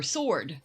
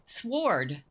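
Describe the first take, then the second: First: "sword" with no w sound; silent W. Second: "sword" with the w sounded; W pronounced. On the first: Player weighing a second pronunciation, "sword" with silent w. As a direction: say "sword" as sord, dropping the w. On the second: Player trying out a looked-up word, "sword" with a w. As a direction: say "sword" with a clear w after the s. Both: Shown as a demonstration. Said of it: "It is pronounced".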